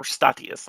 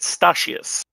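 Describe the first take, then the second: First: "Statius" with a hard t in the middle; "Statius" pronounced with a clear t, no sh; alternative pronunciation. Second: "Statius" pronounced with sh for the t; alternative pronunciation. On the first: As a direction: say "Statius" as STA-tee-us, unsure. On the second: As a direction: say "Statius" as STA-shus. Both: Real, not acted. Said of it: "not sure how to pronounce".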